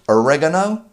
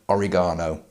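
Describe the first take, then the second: First: It is said with an American pronunciation. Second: It is said with a British pronunciation.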